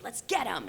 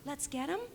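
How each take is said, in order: First: It is said aggressively. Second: It is said nervously.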